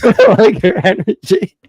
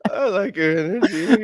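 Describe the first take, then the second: First: Much higher laughing mock quote; laughing imitation. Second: High, laughing mock quote; laughing imitation. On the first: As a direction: squeal it while laughing. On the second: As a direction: parrot the line laughing.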